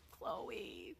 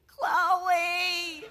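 First: Breathy whispered Chloe, no voice at all; a soft grieving whisper of Chloe; whispered name. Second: Chloe voiced and drawn out, falling at the end; a long mournful Chloe; drawn-out sad name. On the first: Retold or imitated. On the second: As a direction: sigh the name Chloe out slowly and sadly. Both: Mourning the guinea pig's name.

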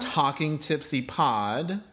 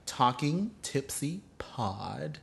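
First: Talking Tipsy Pod spelled out slowly with rising ends; slow deliberate. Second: Talking Tipsy Pod drawn out even slower and quieter; slower and softer. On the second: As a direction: repeat Talking Tipsy Pod very slowly and softly. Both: Shown as a demonstration. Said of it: "I'm emphasizing the way I say".

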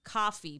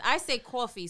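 First: "coffee" with an open ah vowel, as spelled C-O-F; standard "coffee". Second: "coffee" with an aw vowel, like K-A-W; New York "coffee". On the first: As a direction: say coffee as "cahfee". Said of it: "where it's supposed to be". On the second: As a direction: say coffee as "cawfee". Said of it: "the way I pronounce it". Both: Shown as a demonstration.

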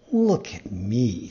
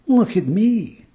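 First: Low, slow fox voice; sly fox. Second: High, loud, drawn-out cat voice; echoing cat. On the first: Fox offers himself as warning. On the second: Cat echoes the fox. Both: A narrator's reading.

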